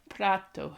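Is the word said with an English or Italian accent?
Italian. It is said with an Italian accent. The speaker calls it right. "in my best Italian accent"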